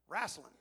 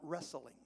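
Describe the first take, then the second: First: It is said with a Southern US accent. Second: It is said with a Northern US accent.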